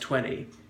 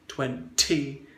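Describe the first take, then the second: First: The middle T disappears completely. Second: The middle T is hit very hard. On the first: "the T is elided or disappears" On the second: "some people overdo it ... hit it with a hammer blow"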